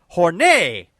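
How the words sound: The word is said in a French-sounding way.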